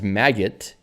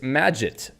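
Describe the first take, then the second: First: It is said like the word maggot. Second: It is said like the word magic. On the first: The speaker calls it wrong. "then I thought it was Maggot uh, because of Git" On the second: The speaker calls it right. "It turns out it's Magit"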